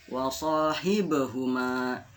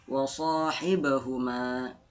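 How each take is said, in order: Both takes have the same delivery.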